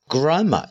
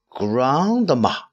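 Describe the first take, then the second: First: The d sound is dropped. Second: The d sound is fully pronounced. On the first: "这个地方我们简单的读grandma 就行了" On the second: "我们如果是把它读全呢是grandma"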